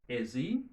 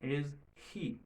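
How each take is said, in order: First: The words link with a z sound, no h. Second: The words stay separate and the h is heard. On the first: "si on fait liaison, son H là l'a perdu" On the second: "si on pas faire liaison, son H là sorti"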